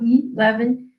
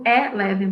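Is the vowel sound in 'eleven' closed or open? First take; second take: closed; open. First: The vowel sound is closed. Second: The vowel sound is open. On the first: "com o som mais fechado" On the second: "falo com o som aberto"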